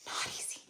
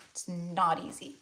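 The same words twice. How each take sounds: First: Hushed whisper. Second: Said in the usual way. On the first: Real, not acted. To viewers doing inner work, hushed whisper. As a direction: whisper it, barely voiced. Heartfelt aside on hard work.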